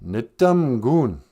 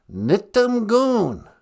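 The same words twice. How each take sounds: First: "Nitumgun" said slowly, syllable by syllable; slow careful "Nitumgun"; Ojibwe word. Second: Teacher's slow "Nitumgun"; Ojibwe word repeated. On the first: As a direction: sound out "Nitumgun" clearly. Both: Shown as a demonstration. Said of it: "We say".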